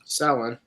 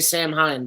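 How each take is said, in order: First: The name sounds like 'sow-en' with no h. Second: The name sounds like 'sam-hine' with an h. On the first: The speaker calls it right. "what's the correct correct pronunciation?" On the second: The speaker calls it wrong. "in the game they say"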